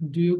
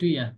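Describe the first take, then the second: First: The second word is a full 'you'. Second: The second word is reduced to 'ya'. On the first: "Do you কি কি বলবো?"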